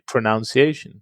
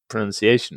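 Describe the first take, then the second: First: The second syllable sounds like 'noun'. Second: The second syllable sounds like 'nun'. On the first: The speaker calls it wrong. "It's to pronounced, so surely it should be pronunciation" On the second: The speaker calls it right. "it's actually pronunciation"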